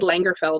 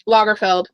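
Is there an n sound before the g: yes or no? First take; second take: yes; no. First: An n sound comes before the g. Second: No n sound comes before the g. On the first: The speaker calls it wrong. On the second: The speaker calls it right.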